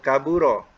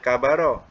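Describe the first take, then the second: First: The second vowel is a 'u' sound. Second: The second vowel is an 'a' sound. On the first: The speaker calls it right. "Tapi yang sebenarnya kaburo. ... ba depan bu" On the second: The speaker calls it wrong. "mungkin kita baca kabaro"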